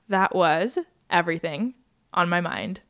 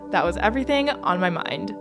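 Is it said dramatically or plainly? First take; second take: dramatically; plainly. First: It is said dramatically, with pauses. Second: It is said plainly, without drama.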